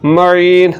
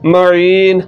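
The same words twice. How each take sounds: The two takes are said the same way.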